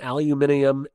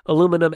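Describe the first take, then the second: First: It is said the British way, five syllables. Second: It is said the American way, four syllables.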